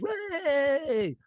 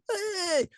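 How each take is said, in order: First: A high, airy crowd "Way!"; mock crowd cheer. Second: "Way!" thrown up very high; mock crowd cheer. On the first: Everybody cheers the winner. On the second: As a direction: whoop it like a delighted crowd.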